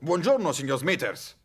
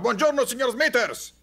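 First: It is called out at moderate volume. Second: It is shouted at very loud volume.

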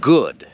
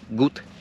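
First: The vowel is long and the word ends in d. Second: The vowel is short and the word ends in t. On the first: The speaker calls it right. "takie dłuższe" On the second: The speaker calls it wrong. "To nie jest gut"

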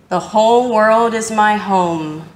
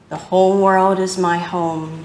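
First: It is said in a strong, loud voice. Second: It is said in a softer, quieter voice. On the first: "first in a strong voice" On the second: "A little softer now"

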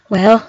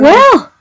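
First: It sounds resigned, like nothing can be done. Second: It sounds like enthusiastic praise.

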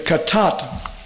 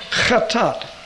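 First: The word begins with a plain k sound. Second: The word begins with a throaty, gargled sound. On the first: "just mark the H off if you're pronouncing Hebrew, the modern pronunciation" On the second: "if you want the Hebrew guttural"

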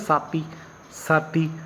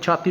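First: The word begins with an 's' sound. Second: The word begins with a 'ch' sound. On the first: "ਛੱਛੇ ਦੀ ਜਗ੍ਹਾ ਵੀ ਸੱਸਾ ਵਰਤਦੇ ਨੇ" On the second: "ਛੱਛੇ ਦੀ ਜਗ੍ਹਾ ਵੀ ਸੱਸਾ ਵਰਤਦੇ ਨੇ"

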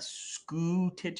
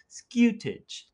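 First: The first vowel is a plain 'oo' without a y. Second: The first vowel has a y before it, 'yoo'. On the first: The speaker calls it wrong. "so it's not scutage" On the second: The speaker calls it right. "you put a little hint of a Y in there"

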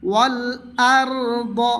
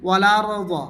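First: The l is held, then the vowel starts separately. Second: The l runs straight into the next vowel. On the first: The speaker calls it right. "বলতে হবে ওয়াল আরদ" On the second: The speaker calls it wrong. "অনেকেই এভাবে বলে ওয়ালারদ, এরকম বলিলে ভুল হবে"

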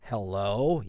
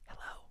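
First: It is said in a normal, full voice. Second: It is said in a creepy whisper.

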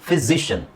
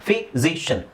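Both takes have the same delivery.

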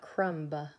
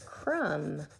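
First: The word ends with an added 'buh' sound after the M. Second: The word ends on the M with no B sound. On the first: The speaker calls it wrong. "not crumba" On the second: The speaker calls it right. "It's crumb"

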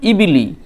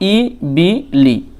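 First: The syllables are said quickly as one word. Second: The syllables are said slowly and separately.

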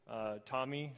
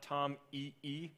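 First: It sounds like the first name Tommy. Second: It does not sound like the name Tommy. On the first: The speaker calls it right. "We like to pronounce it TomEE as the name, Thomas" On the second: The speaker calls it wrong. "So it's not TomEE"

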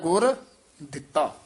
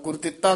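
First: A short pause falls between the two words. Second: The two words run together without a pause. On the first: The speaker calls it right. "ਇੱਥੇ ਠਮਕ ਜੀ ਲਾ ਦੇਣੀ ਹੈ" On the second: The speaker calls it wrong. "ਇਕੱਠਾ ਨਹੀਂ ਕਹਿ ਦੇਣਾ"

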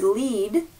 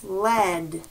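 First: The vowel is a long E sound. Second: The vowel is a short E sound. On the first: "This can be the word lead" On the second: "if we use the short E sound"

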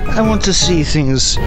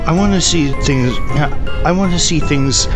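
First: It is said in a British accent. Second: It is said in the speaker's plain accent.

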